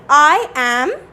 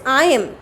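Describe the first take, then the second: First: It is said as two separate words. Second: It is said as one contracted syllable. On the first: "Look at the pronunciation very carefully" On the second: "and this is"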